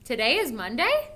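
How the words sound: It is said as a questioning query. The speaker is unsure and is questioning it. "I would say it like this"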